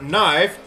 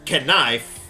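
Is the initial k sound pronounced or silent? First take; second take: silent; pronounced. First: The initial k is silent. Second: The initial k is pronounced.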